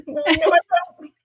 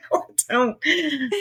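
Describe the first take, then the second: First: Much higher, slow, laughing protest; laughing denial. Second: Laughing denial, quieter. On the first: Denying she has an accent to the host, laughing. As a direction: deny it through giggles. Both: Retold or imitated. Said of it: "they keep accusing me of having an accent".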